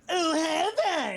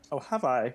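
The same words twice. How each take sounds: First: It is said in a very whiny voice. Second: It is said in a plain, ordinary voice.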